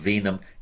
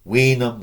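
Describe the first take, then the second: First: The word begins with a V sound. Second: The word begins with a W sound.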